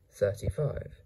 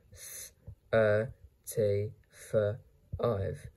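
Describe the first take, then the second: First: Said in the usual way. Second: "thirty-five" chopped into Th, er, T, f, ive; sounded out. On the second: Shown as a demonstration. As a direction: give each sound of "thirty-five" alone. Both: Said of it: "How to pronounce this word?".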